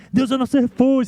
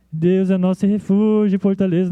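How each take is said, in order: First: Strong, triumphant declaration. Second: Flat, unenthusiastic, as if without spirit; discouraged, listless reading. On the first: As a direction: proclaim it like a battle victory song. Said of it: "cantado com muita entonação, muito forte". (proclamação forte e triunfante, como grito de guerra) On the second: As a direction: read it like someone who has lost heart. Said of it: "Não era cantado assim desanimado". (leitura desanimada, sem vida) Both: Shown as a demonstration.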